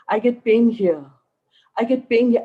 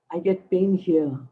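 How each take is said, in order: First: Each repeat of "I get pain here" pushed higher and louder; a worried patient's complaint swelling with every repeat; rising insistence. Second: Said in the usual way. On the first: Retold or imitated. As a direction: build the complaint up, more anxious each time. Woman repeating her complaint, building.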